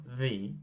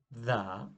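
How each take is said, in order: First: THE said "thee"; THE rhyming with "see"; THE with long ee. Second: THE said "thuh"; THE ending in "uh", like "duh"; THE with a schwa. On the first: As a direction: say THE with an "ee" ending. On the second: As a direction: say THE with a short, open "uh". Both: Shown as a demonstration. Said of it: "this article has got two sounds".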